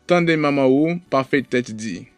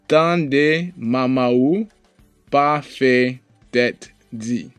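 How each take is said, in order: First: The sentence is spoken at normal speed. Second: The sentence is spoken slowly. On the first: "one more time at regular speed" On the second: "We'll read it one time slow"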